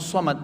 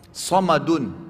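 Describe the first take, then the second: First: The word ends on a bare consonant. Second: The word ends with a full vowel ending.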